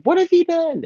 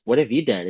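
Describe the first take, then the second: First: Very high, hammed-up anguish; mock falsetto wail. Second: Said in the usual way. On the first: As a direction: overact the cry. Repeated line, higher.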